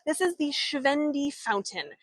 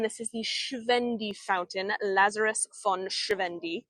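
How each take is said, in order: First: "Schwendi" pronounced the German way; higher-pitched, with a German "Schwendi"; German accent. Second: "Schwendi" said in an English accent; the German name read the English way; anglicized English pronunciation of "Lazarus von Schwendi". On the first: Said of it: "this is my German accent". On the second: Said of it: "in the English accent". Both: Shown as a demonstration.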